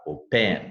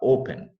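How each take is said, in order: First: The stress is on the second syllable. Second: The stress is on the first syllable. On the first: The speaker calls it wrong. "Você não fala open" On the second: The speaker calls it right. "você fala open. A sílaba forte está no O"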